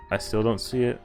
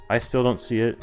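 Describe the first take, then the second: No difference in how they are said.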